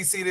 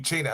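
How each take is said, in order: First: The name is said the usual English way. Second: The name is said the Italian way. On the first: "you can say Cena" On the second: "the actual would be China"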